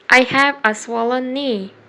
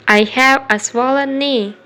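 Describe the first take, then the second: No difference in how they are said.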